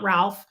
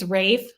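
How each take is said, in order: First: It sounds like 'alf' with an l. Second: It rhymes with 'safe', without an l. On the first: The speaker calls it wrong. "it's not Ralph" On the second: The speaker calls it right. "it's Rafe Fiennes"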